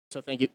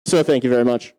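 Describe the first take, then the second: First: Said in the usual way. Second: Thanks blurted over vanished noise; shouting as noise stops. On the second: Real, not acted. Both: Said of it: "Oh, that was loud".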